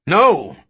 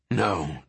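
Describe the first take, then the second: First: Loud, raised-pitch no; shouted refusal. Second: Low, soft, firm no; quiet refusal. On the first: Dodgson stops King throwing out the egg, shouting. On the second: Dodgson refuses to give up the egg, low and quiet. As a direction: refuse in a lowered, softened voice. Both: Acted.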